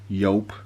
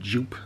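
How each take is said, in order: First: The name begins with a Y sound. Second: The name begins with a J sound. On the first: This is the proper pronunciation. The speaker calls it right. "the proper pronunciation for Joop is actually Yelp" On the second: This is how many people in the UK say it. The speaker calls it wrong. "What a lot of people do, especially in the U K, call it Joop"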